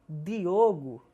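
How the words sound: The D is said the Northeastern Brazilian way. "pronunciam Diogo"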